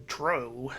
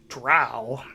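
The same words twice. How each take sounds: First: Dro with a long O sound; acceptable alternative pronunciation. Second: Drow rhyming with cow; common pronunciation. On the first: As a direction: say "dro" to rhyme with row. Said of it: "saying dro is also acceptable". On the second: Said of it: "the more common pronunciation". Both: Shown as a demonstration.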